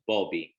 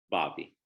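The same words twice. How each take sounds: First: Name said with a Bukharian accent, rounded "o" in Bobby. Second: Said in the usual way. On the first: Shown as a demonstration. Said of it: "I said it in a Bukharian accent". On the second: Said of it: "I said it in a Bukharian accent, but".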